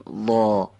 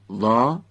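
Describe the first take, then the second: First: وا drawn out, voiced toward the back of the mouth; heavy, backed وا; back-of-mouth sound. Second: وا with a light, forward open vowel; thin, fronted وا; front-of-mouth sound. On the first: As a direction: pull the vowel in وا back, heavy and long. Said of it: "باید بدیم عقب دهان". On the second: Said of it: "این یعنی از جلوی دهان گفتن". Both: Shown as a demonstration.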